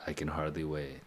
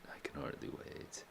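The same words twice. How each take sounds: First: Said in the usual way. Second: "I can hardly wait" whispered, breathy and hushed. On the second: Shown as a demonstration. Echoes the line in a whisper.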